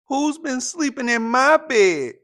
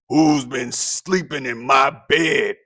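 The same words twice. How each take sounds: First: It is said in a medium-pitched voice. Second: It is said in a deep gruff voice.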